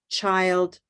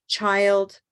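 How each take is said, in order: No difference in how they are said.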